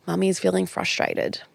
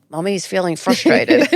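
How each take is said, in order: First: Calm named feeling. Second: Louder, laughing through the words; exasperated mum, laughing it out; laughing frustrated version. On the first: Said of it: "I don't say it like that". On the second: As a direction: blurt it out with a laugh, half exasperated. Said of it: "It's usually". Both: Shown as a demonstration.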